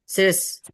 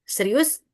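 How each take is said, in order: First: The word is said shortened, with sounds dropped. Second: The word is said in full, every sound kept. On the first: "jadi diubah serius gitu" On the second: "memendekkan kata seperti serius"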